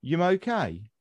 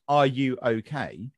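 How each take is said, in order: First: Brummie "Yum okay?", "are you" merged into "Yum"; Brummie accent. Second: Said in the usual way. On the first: Shown as a demonstration. Showing how Birmingham asks it, Brummie accent. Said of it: "If you're in Birmingham". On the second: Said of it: "if I said".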